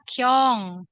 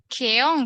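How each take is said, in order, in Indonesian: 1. Namanya diucapkan satu suku kata, kyong. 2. Namanya diucapkan dua suku kata, ke-ong. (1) "Tapi dibacanya Kyong" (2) "gimana sih tulisnya teh? Keong gitu ya"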